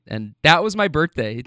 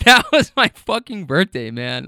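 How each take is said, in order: First: Said in the usual way. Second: Raised exasperated voice. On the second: Real, not acted. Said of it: "I raise my voice a little bit, no more or less than I just did".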